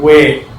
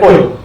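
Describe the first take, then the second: First: The word is said slowly in its full form. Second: The word is said quickly in a reduced form. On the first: "say it slowly. They were like way" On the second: "but in rapid speech, they were like oy"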